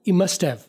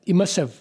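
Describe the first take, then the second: Both takes have the same delivery.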